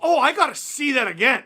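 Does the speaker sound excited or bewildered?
excited. It sounds excited and impressed.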